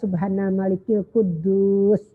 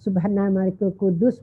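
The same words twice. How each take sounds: First: It is drawn out, said longer. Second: It is said at normal length.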